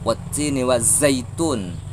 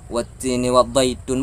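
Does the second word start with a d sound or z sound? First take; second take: z sound; d sound. First: The second word begins with a z sound. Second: The second word begins with a d sound. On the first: The speaker calls it right. "tapi zo, za" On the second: The speaker calls it wrong. "bukan do di situ"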